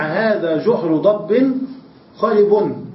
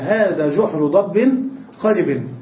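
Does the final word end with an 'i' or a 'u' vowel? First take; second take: u; i. First: The last word ends with a 'u' vowel. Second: The last word ends with an 'i' vowel. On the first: The last word describes the hole. "أكثر العرب ترفع كلمة خرب" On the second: The last word takes its case from the neighbouring word. "الجحر مرفوع والخرب مجرور"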